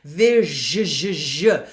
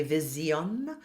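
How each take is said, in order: First: Vision with the zh held and buzzing; buzzy zh. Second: Vision said with a z, like vizion; students' mispronunciation of vision with a z; wrong zh. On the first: Coach shows the correct vision with a long zh. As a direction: stretch the zh in vision. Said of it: "So it's a zh sound". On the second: Coach imitates students mispronouncing vision with a z. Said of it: "sometimes I'll hear students say". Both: Shown as a demonstration.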